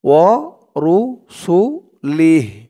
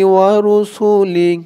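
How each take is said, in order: First: The word ends with a full final vowel. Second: The word ends without a final vowel.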